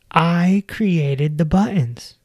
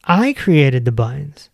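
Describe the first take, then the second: First: "I created the buttons" slow, with weight on "I"; stress on I. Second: Said in the usual way. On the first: Shown as a demonstration. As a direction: zeg "I" langzaam en met nadruk.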